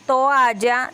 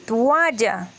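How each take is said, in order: First: Said in the usual way. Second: "toalla" said slowly as "tualla", the o turned to u; swapped vowels. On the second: Shown as a demonstration. ("toalla" dicho como "tualla") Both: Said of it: "En vez de decir".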